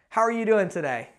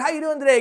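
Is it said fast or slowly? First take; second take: slowly; fast. First: It is said at a slow pace. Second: It is said at a quick pace.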